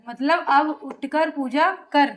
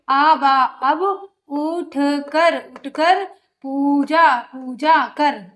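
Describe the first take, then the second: First: Said in the usual way. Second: Very slow, piece by piece, उठ कर पूजा कर split into chunks; broken reading. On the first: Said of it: "फिर उसको completely पढ़ो". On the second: Shown as a demonstration. Teacher showing pupils how to read in pieces, very slow. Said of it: "पहले आप तो तोड़ के पढ़ो".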